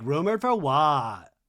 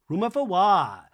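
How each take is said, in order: First: Slow, drawn-out challenge; mock indignant question. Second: Raised, emphatic challenge; louder mock indignation. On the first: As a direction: stretch the question out in mock disbelief. Mimicking Lisa's indignant challenge, first take. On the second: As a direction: push the question up in mock outrage. Mimicking Lisa's indignant challenge, second take.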